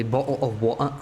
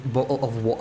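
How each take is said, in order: First: Mock British accent. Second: Said in the usual way. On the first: Shown as a demonstration. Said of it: "British accent". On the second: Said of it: "We are clearly the experts on that".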